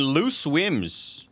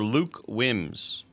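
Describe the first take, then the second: First: "Loose Wims" drawn out slowly, S sound closing the first word; name split as Loose Wims. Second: "Luke Wims" drawn out slowly, K sound closing the first word; name split as Luke Wims. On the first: Streamer reading out a subscriber's username, slowly sounding "Loose Wims" with an S. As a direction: slowly read "Loose Wims", hissing S before "Wims". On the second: Streamer correcting a subscriber's username, slowly sounding "Luke Wims" with a K. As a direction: slowly read "Luke Wims", hard K before "Wims". Trying two readings of username. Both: Real, not acted.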